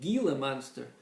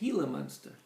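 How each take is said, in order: First: Gila starts with a hard G sound. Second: Gila starts with an H sound. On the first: The speaker calls it wrong. "you would think you would pronounce it" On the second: The speaker calls it right. "they don't pronounce the G"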